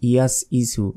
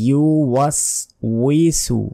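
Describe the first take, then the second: First: It starts with 'yas' and drops the w sound. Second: It starts with 'yu' followed by a w sound. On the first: The speaker calls it wrong. "এই শব্দ আমরা অনেকে ভুল বলি" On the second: The speaker calls it right. "ইয়া পেশ ইউ"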